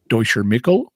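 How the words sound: Michael is said with a German pronunciation.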